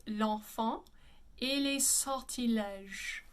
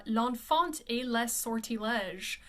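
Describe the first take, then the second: First: "l'enfant et les sortilèges" with nasal vowels, silent T and S; correct French. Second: "l'enfant et les sortilèges" with sounded N, T, S and R; Anglicised misreading. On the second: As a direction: slowly read "l'enfant et les sortilèges" letter by letter. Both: Shown as a demonstration. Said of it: "but the pronunciation is".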